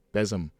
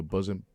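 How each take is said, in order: First: "besom" said BEZ-um, short e, stress on the first syllable; corrected word. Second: "bosom" said like the chest word, BUZ-um; misread word. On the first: Correcting himself to "besom" in the verse. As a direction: fix the slip with a clear "besom". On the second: Misreading "bosom" aloud from Isaiah. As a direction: slip into "bosom" before catching it. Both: Real, not acted.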